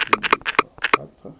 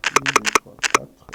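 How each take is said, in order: Both takes have the same delivery.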